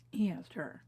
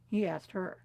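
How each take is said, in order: First: Hushed repeat. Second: Said in the usual way. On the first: Real, not acted. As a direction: repeat it almost under the breath. Repeats the line hushed for emphasis.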